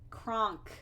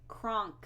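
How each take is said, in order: The two takes are said the same way.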